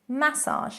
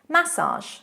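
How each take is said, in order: First: It is pronounced the British way. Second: It is pronounced the British way.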